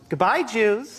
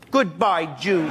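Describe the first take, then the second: First: It is said sweetly, without anger. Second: It is said with more anger.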